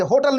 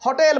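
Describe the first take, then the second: First: होटल said as hoh-tal, a short dull a in the last syllable; Hindi-style hotal. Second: होटल said as hoh-TEL, a clear e in the last syllable; English-style hotel. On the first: Teacher showing students the wrong say होटल with -tal. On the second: Teacher showing students the right say होटल with -tel. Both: Shown as a demonstration. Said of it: "होटल नहीं बोलेंगे".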